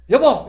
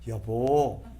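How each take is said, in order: First: Loud, high, sharp "여보!"; the wrong way to call your spouse, yelled; harsh yell. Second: The right way to call your spouse, gently; gentle call. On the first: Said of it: "이래 하지 마시고". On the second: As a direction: say it tenderly. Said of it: "한번 따라해 봅시다". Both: Shown as a demonstration.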